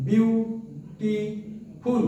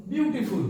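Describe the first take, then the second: First: "beautiful" slowly as বিউ, টি, ফুল; three separated beats on "beautiful"; split into syllables. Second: Said in the usual way. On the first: Shown as a demonstration. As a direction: pause after each syllable of "beautiful". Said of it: "কবার চাপ দিল". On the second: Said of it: "উচ্চারণ করো".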